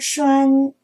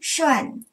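First: The syllable has a high level tone. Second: The syllable has a sharply falling tone. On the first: "一声栓" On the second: "四声涮"

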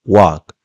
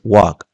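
Both takes have the same delivery.

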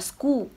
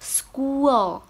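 First: The word ends on a bare 'oo' sound. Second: The word ends with an added 'uh' and l. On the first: The speaker calls it wrong. "chị đang đọc là school, mới đang u thôi" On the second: The speaker calls it right. "mình sẽ làm âm ờ lên nữa"

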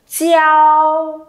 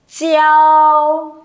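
First: The ch is followed by an ee glide. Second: The same.

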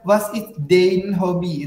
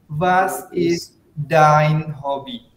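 First: The vowel in 'dein' is not said as 'ai'. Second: The vowel in 'dein' is said as 'ai'. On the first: The speaker calls it wrong. "nggak baca was is dein hobby. Itu salah" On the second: The speaker calls it right. "Cara baca yang benarnya adalah bagaimana?"

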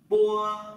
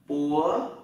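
First: The pitch stays level and is drawn out long. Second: The pitch rises over two beats. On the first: "cái thanh một này thì làm sao? Kéo dài ra, hai nhịp" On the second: "đó là thanh hai đấy"

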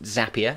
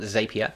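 First: The name rhymes with the word happier. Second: The name does not rhyme with happier. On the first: The speaker calls it right. "it is pronounced Zapier" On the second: The speaker calls it wrong. "not Zapier"

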